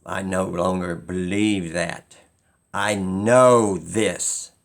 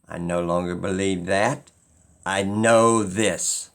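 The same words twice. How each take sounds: The two takes are said the same way.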